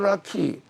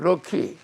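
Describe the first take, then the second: First: The first vowel is an open 'ah' sound. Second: The first vowel is a mid 'uh' sound. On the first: This is the old Korean reading of the word. "우리가 락키 하면" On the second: This is how English speakers say the word. "저거는 럭키"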